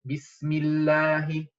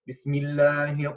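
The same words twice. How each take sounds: First: The first b is strong and fully articulated. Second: The first b is weak and not fully articulated. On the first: The speaker calls it right. "Bismillahi, right?" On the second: The speaker calls it wrong. "Not like Bismillahi, what? No"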